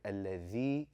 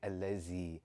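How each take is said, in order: First: The middle consonant is a soft th sound. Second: The middle consonant is a buzzing z sound. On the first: The speaker calls it right. "The correct pronunciation" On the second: The speaker calls it wrong. "A lot of us have grown up saying allazi"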